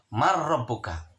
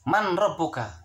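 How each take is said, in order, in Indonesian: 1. Bunyi n melebur menjadi bunyi r yang dobel. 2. Bunyi n diucapkan sebelum r. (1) "dibacanya adalah harus mar rabbuka" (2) "Tulisannya adalah man rabbuka"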